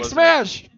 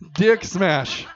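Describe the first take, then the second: First: The title is yelled loudly. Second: The title is said at a normal volume.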